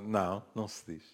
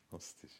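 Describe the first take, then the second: First: Said in the usual way. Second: Whispered echo to herself. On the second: Real, not acted. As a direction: say it again under your breath. Repeated under breath.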